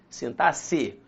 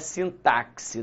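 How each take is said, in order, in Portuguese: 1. O x é pronunciado como s. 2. O x é pronunciado como ks. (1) "o X tem som de C" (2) "aqui não é sintaxe, não tem dífono"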